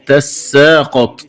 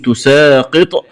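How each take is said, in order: First: تساقط said "tassaaqat"; doubled seen. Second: Said in the usual way. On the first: Shown as a demonstration. Teacher showing the variant, تساقط as "tassaaqat". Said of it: "بفتح التاء وتشديد السين وفتح القاف". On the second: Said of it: "بفتح التاء وتشديد السين".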